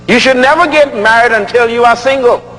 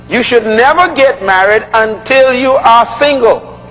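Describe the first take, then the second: First: It is said at normal speed. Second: It is said very slowly.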